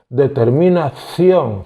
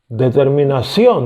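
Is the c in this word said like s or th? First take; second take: th; s. First: The c is pronounced like a th sound. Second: The c is pronounced like an s sound. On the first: This is how Spaniards say it. "Ellos dicen determinación, ción, como si fuera Z" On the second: This is how Latin Americans say it. "decimos nosotros"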